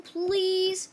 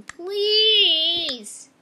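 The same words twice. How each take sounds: First: Said in the usual way. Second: Loud drawn-out pleading please; loud begging. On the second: Pretend. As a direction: beg it loud.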